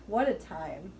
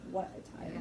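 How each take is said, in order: First: Said in the usual way. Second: Whispered. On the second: Shown as a demonstration.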